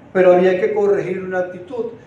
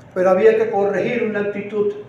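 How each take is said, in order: No difference in how they are said.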